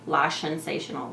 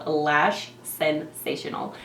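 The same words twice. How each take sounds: First: The phrase is said quickly and runs together. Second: The phrase is said slowly and carefully. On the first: The speaker calls it wrong. "every time I like say this really quickly, it comes out really funny" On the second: The speaker calls it right. "I had to say it very slow"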